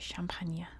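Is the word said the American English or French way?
French. It is said with French pronunciation. "we don't say"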